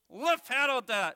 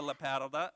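First: High, loud puppet attempt; misreading puppet. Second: Said in the usual way. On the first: Puppet misreading the verse, high loud voice. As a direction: proudly sound out a nonsense word as a puppet. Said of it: "Well, what's that first word". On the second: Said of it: "No, not the lapatodon".

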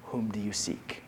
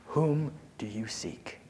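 First: Low, soft and calm, with quiet authority. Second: Whispered slowly, unvoiced. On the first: Acted. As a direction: ask it softly, like a king who fears nothing. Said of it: "And in a calm voice". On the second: Shown as a demonstration. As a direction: breathe the question, slow and hushed.

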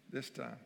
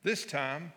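First: Soft breathy laugh through this time. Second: Said in the usual way. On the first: Real, not acted. Pastor laughing to the congregation about Jonah, soft. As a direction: chuckle this time under your breath. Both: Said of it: "this time Jonah obeyed".

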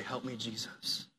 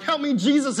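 First: Soft, low whispered-down help me, Jesus; hushed plea of help me, Jesus; quiet plea. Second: Loud, high cry for help; loud high cry of help me, Jesus. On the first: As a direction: breathe it out as a humble prayer. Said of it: "reach up and say". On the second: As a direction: shout it up like you're falling. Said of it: "I'm like". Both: Retold or imitated.

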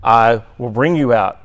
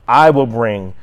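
First: "bring" carries the weight, with "I" left lighter; stress on the verb. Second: "I" hit firmly, ahead of "will bring"; stress on I. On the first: Teacher offering another reading of the verse, stressing "bring". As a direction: lean on "bring". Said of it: "on the emphasis of the verb". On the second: Teacher showing God as the actor, stressing "I". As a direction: put the weight on "I". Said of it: "with the emphasis on the "I". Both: Shown as a demonstration.

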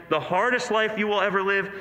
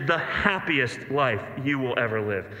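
First: "hardest" leaned on, phrase held up unfinished; stress on HARDEST. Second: "happiest" punched, phrase falling to a close; stress on HAPPIEST. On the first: Preacher setting up not only but also, "hardest" stressed. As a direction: punch "hardest", leaving the contrast to come. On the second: Preacher answering the hardest life, "happiest" stressed and conclusive. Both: Shown as a demonstration.

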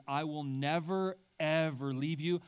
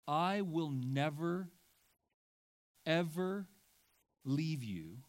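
First: "never, ever" punched and louder; emphatic never ever. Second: "never" and "ever" drawn out and pressed; slow emphatic "I will never, ever leave you"; stress on never ever. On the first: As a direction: hammer "never, ever leave you". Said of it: "we're being told that God says". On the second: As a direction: lean hard on "never, ever". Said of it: "I added some evers". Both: Shown as a demonstration.

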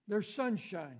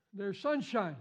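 The two takes are said the same way.

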